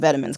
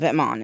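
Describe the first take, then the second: First: It is said like the English word 'vitamins'. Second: It is said like 'vetmon', French style. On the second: "Number one is pronounced Vetmon"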